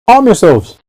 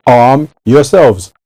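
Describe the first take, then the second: First: Pitched high, ringing call to arms; rally the troops with a high cry; rousing battle cry, raised pitch. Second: Drawn out slowly, stressing yourselves; slow solemn command with the weight on yourselves; slow, weighty. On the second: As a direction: lean on every word, slow and grave. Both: Shown as a demonstration.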